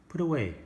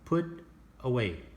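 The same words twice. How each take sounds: First: The two words run together as one. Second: The two words are said apart. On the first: The speaker calls it right. "just one word" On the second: The speaker calls it wrong.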